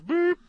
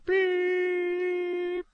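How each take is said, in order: First: It is a short, clipped beep. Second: It is a long, flat, held beep.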